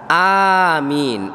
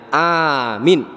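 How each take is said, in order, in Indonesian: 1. Kedua vokal panjang. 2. Hanya vokal pertama yang panjang. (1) "A-nya panjang, min-nya panjang" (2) "A-nya saja yang panjang, min-nya pendek"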